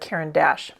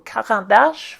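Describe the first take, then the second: First: The name is said with an American accent. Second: The name is said with a French accent. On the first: "I am Americanizing that pronunciation" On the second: "for those of you who would prefer to hear it in French"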